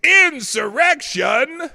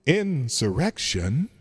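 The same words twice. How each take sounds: First: Slow, loud, higher shout of Insurrection; booming echoed shout. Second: Drawn out through a soundboard echo; echo effect. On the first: Host finds the right echo and booms it, slow shout. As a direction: boom the word out like a dramatic announcer. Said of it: "Number five". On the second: Host testing echo effects on the word, slow echoed. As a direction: stretch the word slowly into the echo. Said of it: "Let's try this one". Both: Shown as a demonstration.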